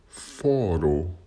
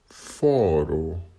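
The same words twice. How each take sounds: Both takes have the same delivery.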